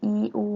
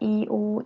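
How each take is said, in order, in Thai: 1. สระสองเสียงอ่านแยกกันคะ 2. สระสองเสียงอ่านแยกกันคะ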